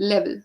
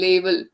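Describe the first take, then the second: First: The word is said quickly. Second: The word is said slowly. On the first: The speaker calls it right. "it has to be quick" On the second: The speaker calls it wrong. "if you say it slowly, it turns up to be level. That is wrong"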